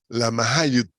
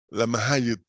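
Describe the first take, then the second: No difference in how they are said.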